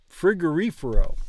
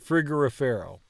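First: The stress falls on the third syllable, ri. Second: The stress does not fall on the ri syllable. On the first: The speaker calls it right. "emphasizing the reefer part of frigorifero" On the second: The speaker calls it wrong. "not frigorifero"

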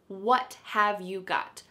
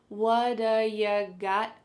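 First: Each word is said separately and in full. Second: The words run together and reduce to 'whadaya'. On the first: "we have, what have you got?" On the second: "it sounds like, what-a"

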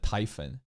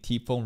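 First: The name begins with a 'tie' sound. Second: The name begins with a 'tee' sound. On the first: "rather than Typhon" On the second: "I pronounced T-Phone's name T-Phone"

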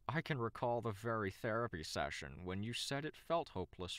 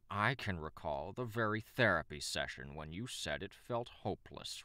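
First: The voice is plain, without a growl. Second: The voice is rough and growly. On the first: The speaker calls it wrong. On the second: The speaker calls it right.

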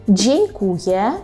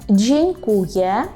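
The two takes are said the same way.

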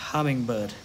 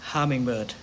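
No difference in how they are said.

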